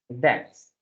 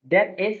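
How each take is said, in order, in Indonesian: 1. Diucapkan sebagai satu kata kontraksi yang pendek. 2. Diucapkan sebagai dua kata penuh yang terpisah.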